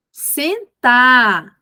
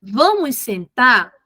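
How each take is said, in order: First: Louder, firm one-word order; firm command. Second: Gentle invitation. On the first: Teacher to a child who didn't sit, louder firm order. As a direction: raise your voice with clear authority. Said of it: "aumentar o tom de voz gradativamente". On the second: Teacher crouched facing the child, slow gentle invitation. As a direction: coax the child kindly, eye to eye. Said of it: "olha pra ele". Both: Shown as a demonstration.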